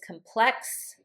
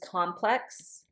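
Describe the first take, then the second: First: The stress is on the second syllable. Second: The stress is on the first syllable. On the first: It is used as a verb. "it would be pronounced with plex as the as the accent" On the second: It is used as a noun. "the noun will have the accent on the first"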